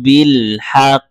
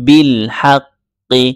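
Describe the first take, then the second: First: The last word stops short on the consonant. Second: The last word ends with a short i vowel. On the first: The reader stops at this point. "ওয়াকফ করার ধারা এইটার মূল উচ্চারণ থেকে একটু ভিন্ন উচ্চারণ হবে যেমন বিল হাক" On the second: It is read on without stopping. "মূল উচ্চারণ হচ্ছে বিল হাক্কি"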